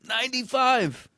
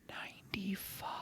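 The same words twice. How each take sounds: First: It is said loudly, almost shouted. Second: It is said quietly, in a whisper. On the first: "Shout that from the mountaintops" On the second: "screw the whispers"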